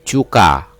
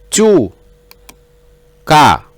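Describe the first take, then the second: First: The two syllables run together without a pause. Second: The two syllables are separated by a pause.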